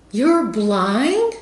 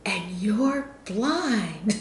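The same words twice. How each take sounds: First: High, louder imitating the lady's surprise; surprised question. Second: Drawn out very slowly, imitating her disbelief. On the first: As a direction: imitate her amazement, pitched up. Retold lady hears she's blind. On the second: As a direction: stretch it out as if she can't believe it. Lady asks again, disbelieving.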